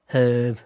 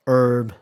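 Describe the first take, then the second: First: Herb with the h sounded; British pronunciation. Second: Herb with a silent h; American pronunciation. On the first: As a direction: say herb as "huhb", loudly. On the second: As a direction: say herb as "erb", loudly. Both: Shown as a demonstration.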